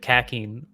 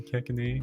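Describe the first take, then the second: First: The name ends without a final vowel sound. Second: The name ends with a pronounced final vowel. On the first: This follows English spelling habits. The speaker calls it wrong. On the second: This is how the name is actually said. The speaker calls it right.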